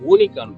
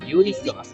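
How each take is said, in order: First: The word begins with a plain 'oo' sound. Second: The word begins with a 'yoo' sound. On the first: The speaker calls it wrong. "ஊனிகான் இல்ல" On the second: The speaker calls it right. "இல்ல யூனிகான்"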